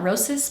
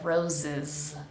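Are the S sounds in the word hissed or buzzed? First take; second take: hissed; buzzed. First: The S sounds are hissed without voicing. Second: The S sounds are buzzed like a Z. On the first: The speaker calls it wrong. "It's not roses" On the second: The speaker calls it right. "Make sure both of these S's are pronounced like a Z, vibrating sound"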